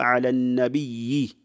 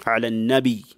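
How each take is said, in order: First: النبي with a doubled, lengthened ya at the end; wrong doubled-ya reading. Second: النبي ending in a single light long i; light takhfif reading. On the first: Teacher showing how not to read the verse, النبي with tashdid. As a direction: stretch the last syllable of النبي as nabiyyi. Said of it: "Ici, on ne lit pas". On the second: Teacher giving the reading that fits the verse, النبي with takhfif. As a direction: end النبي on a plain nabi, no doubling. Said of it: "avec le takhfif". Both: Shown as a demonstration.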